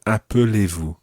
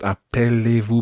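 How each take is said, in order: First: "appelez-vous" with schwa "puh" in the middle; correct pronunciation demo. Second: "appelez-vous" with open "pell" in the middle; wrong pronunciation demo. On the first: Teacher corrects the middle sound, "appelez" said as a-puh-lay. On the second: Teacher shows the version to avoid, mispronounced "appelez" as a-pell-ay. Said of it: "It's not". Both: Shown as a demonstration.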